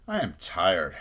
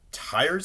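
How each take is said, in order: First: Said in the usual way. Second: High, rising question; incredulous. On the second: A narrator's reading. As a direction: echo it in disbelief, pitch lifting. Rabbit echoes it in disbelief.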